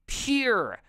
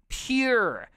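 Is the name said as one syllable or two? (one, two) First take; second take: one; one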